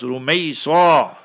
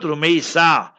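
First: The s sound is heavy and emphatic. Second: The s sound is light and plain. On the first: The speaker calls it right. "Rumaysa, what a sword" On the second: The speaker calls it wrong. "not Rumaysa"

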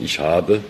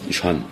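First: It is said in Standard German. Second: It is said in Saarland dialect.

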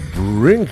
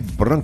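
First: The vowel is an 'ih' sound, like 'brink'. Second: The vowel is an 'uh' sound, like 'brunk'. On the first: This is the British way of saying it. The speaker calls it right. "It should be Brink" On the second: This is how an Afrikaans speaker would say it. The speaker calls it wrong. "Did I say Brunk?"

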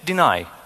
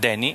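First: The stress is on the second syllable. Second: The stress is on the first syllable. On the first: The speaker calls it right. "it's deny" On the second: The speaker calls it wrong. "it's not Denny"

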